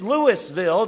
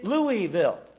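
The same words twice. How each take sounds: First: The name is pronounced just as it is spelled. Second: The name is pronounced the French way. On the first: "just like it's spelled" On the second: "it's a French name. It's Louisville"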